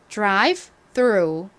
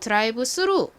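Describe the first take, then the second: First: The phrase has English sounds, with a th. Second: The phrase has Korean sounds, th as s.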